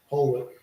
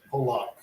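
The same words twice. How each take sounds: First: Pollock with a reduced second vowel; trying a pronunciation. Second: Pollock with a full "lock" ending; softer Pollock, said POH-lahk; trying a pronunciation. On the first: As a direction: say Pollock like "POLL-uck". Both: Shown as a demonstration. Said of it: "I don't know how you pronounce it".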